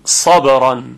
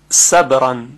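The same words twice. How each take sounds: First: The first consonant is a heavy, thick 's'. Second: The first consonant is a plain, light 's'. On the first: "حالا که ساده درشت میگیم صبرن" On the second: "اگر با سین باشه میگوییم صبرن"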